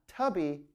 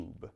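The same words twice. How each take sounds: First: Tubby said with a short U; wrong pronunciation. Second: Tube said with a long U, softly; tube, long U, quiet; right pronunciation. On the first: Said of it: "Again, not tubby". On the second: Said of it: "We say". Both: Shown as a demonstration.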